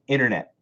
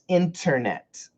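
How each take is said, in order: First: Sounds are reduced in relaxed everyday speech. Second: Every sound is pronounced fully and carefully. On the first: "Americans say" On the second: "perfect pronunciation is"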